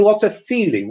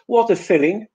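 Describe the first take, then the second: First: "feeling" with a long tense ee. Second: "filling" with a short lax i; a clear short "filling". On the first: Teacher contrasting "feeling" with "filling". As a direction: stretch the ee in "feeling". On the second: Teacher contrasting "filling" with "feeling". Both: Shown as a demonstration. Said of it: "Compare these two sentences".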